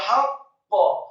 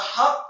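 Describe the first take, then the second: First: The final q is released with a bounce. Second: The final q is cut off without a bounce. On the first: The speaker calls it right. "yang benar adalah haqqa. ... wajib dikolkolahkan atau dipantulkan" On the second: The speaker calls it wrong. "Jangan haq atau haqq. Salah"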